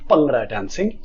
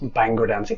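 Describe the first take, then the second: First: The first word begins like 'pung'. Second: The first word begins like 'bang'. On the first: The speaker calls it right. "correctly pronounced" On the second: The speaker calls it wrong. "People mistakenly pronounce"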